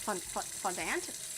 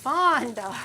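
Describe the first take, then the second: First: "fondant" ending in a sounded "-dant", like ant, questioning; halting, quieter try at "fondant" with a hard final t; Anglicized fondant. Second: "Fondant" with a loud, drawn-out FON; first-syllable emphasis. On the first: Retold or imitated. Streamer trying out the other way, puzzled "fon-DANT" for "fondant". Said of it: "Why do you place the emphasis".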